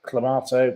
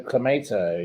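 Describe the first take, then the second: First: "clamato" said with a long open "ah", to-MAH-to; tomahto, broad a. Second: "clamato" said with "ay", to-MAY-to; tomayto, American a. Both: Shown as a demonstration. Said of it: "some people say tomato and some people say tomato".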